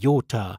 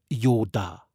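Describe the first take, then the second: First: The middle consonant is a hard, aspirated t. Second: The middle consonant is a soft Franconian d.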